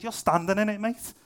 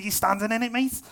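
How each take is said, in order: First: A light Scouse twang on the retort; Scouse accent. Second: A hammed-up Scouse twang, rising at the end; lightly mock a Liverpool friend's Scouse accent. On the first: Retold or imitated. Retelling a Scouse friend's reply in Scouse. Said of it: "he said it like that as well, 'cause he was Scouse". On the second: Imitating the Scouse church leader, in a playful Scouse accent. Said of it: "'cause he was Scouse".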